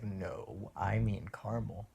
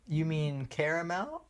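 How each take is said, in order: First: "caramel" as CAR-mul, low correction; Californian pronunciation. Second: "caramel" as three-syllable CARE-uh-mel, rising question; girlfriend's pronunciation. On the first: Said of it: "And I'm like". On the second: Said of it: "she was like". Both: Retold or imitated.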